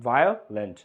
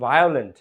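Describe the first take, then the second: First: violent parted as Veo, short pause, lent; split into syllables. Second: Said in the usual way. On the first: Shown as a demonstration. Teacher proving it has two syllables, violent split in two. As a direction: say violent in two lower, separate pieces. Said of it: "violent দুই syllable". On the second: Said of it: "যখন তুমি বলছো violent".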